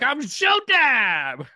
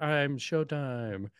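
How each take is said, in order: First: It is shouted loudly. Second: It is said more quietly.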